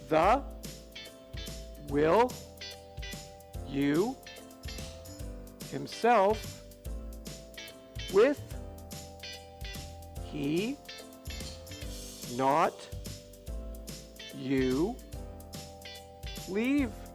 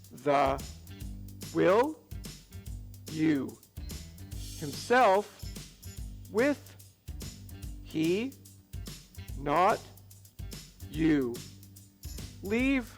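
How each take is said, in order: First: It is said at a normal, steady pace. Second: It is said a little bit faster.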